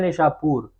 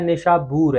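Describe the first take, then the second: First: The middle consonant is a p sound. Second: The middle consonant is a b sound. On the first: The speaker calls it wrong. "यह गलतुल-आम है" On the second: The speaker calls it right. "यह असल में बी के साथ है"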